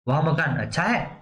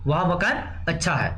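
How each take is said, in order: First: It is said with a questioning tune. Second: It is said with a plain, flat statement tune. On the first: It asks whether the house is good. "प्रश्नवाचक" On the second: It simply states that the house is good. "सामान्य शब्द हो गया।"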